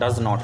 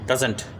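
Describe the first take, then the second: First: It is said as two full words. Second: It is said as one contracted word. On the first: "वैसे तो हम बोलते हैं डज नॉट डज नॉट" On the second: "लेकिन आप छोटे form में बोल सकते हैं डजंट डजंट"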